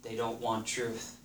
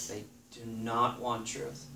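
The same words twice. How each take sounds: First: Said in the usual way. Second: Slow, weighty stress on "not" in "do not want"; emphatic "do not", each word separated. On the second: Shown as a demonstration. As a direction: lean hard on "not", word by word.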